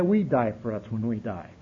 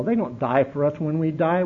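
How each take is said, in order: First: We stressed, lower and softer. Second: They stressed with a lift. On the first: Telling the room who suffers, stress on We. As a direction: drop low and land on "We". Contrast they versus we. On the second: Telling the room who suffers, stress on They. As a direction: lean on "They" as the contrast word. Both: Acted.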